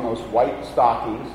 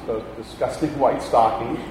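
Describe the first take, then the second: First: Said in the usual way. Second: Softer, chuckling over the disgusting stockings; laughing in disgust. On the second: Real, not acted. Preacher laughing at his hospital stockings, softly. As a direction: laugh through the words in mock disgust.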